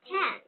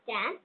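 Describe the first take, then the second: First: The first k sound has a strong puff of air. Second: The first k sound has no puff of air. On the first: The speaker calls it right. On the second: The speaker calls it wrong.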